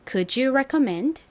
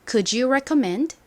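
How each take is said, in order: The two takes are said the same way.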